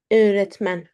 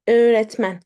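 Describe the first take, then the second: No difference in how they are said.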